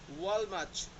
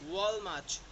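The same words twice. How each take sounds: The two takes are said the same way.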